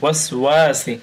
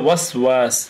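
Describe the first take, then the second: First: The word ends with an 'i' vowel. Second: The word ends on a bare 's' sound. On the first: The reading continues to the next word. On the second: The reading stops after this word.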